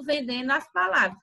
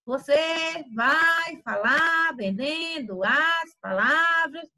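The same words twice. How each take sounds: First: Said in the usual way. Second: Very slow, singsong stretched syllables; exaggerated word-selling. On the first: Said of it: "Não que você vai estar só falando". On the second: Shown as a demonstration. Teacher shows students how not to talk, in exaggerated singsong drawl. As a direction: draw out every word like a hawker's chant. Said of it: "você não vai estar falando assim".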